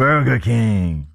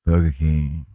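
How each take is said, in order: First: "Burger King" drawn out very slowly, advert style; slow announcer Burger King. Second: Low, slow ad-voice "Burger King"; deep announcer Burger King. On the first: Second try at the ad, "Burger King" slow and drawn. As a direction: stretch "Burger King" like a jingle voice-over. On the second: Co-host tries the ad voice, "Burger King" low and drawn. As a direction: growl out "Burger King" like the advert, lower. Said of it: "Didn't sound so good for me". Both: Shown as a demonstration.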